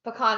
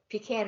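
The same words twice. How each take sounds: First: "Pecan" said puh-KAHN, open ah at the end; correct puh-kahn pronunciation. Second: "Pecan" said pee-can, long ee and a as in can; rejected pee-can pronunciation. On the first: Ruling on the correct way, puh-kahn pronunciation. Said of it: "Pecan is correct". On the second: Ruling out the other way, pee-can pronunciation. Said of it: "Pecan is not correct". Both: Shown as a demonstration.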